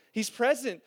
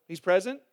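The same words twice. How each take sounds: First: "he's present" as a firm statement, falling at the end; affirming. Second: "He's present?" as a low question rising at the end. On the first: Preacher answers his own question, "he's present" affirming. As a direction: let "he's present" drop as a settled answer. Gives the confident answer himself. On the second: Preacher tests the congregation's answer, "He's present?" questioning. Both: Shown as a demonstration.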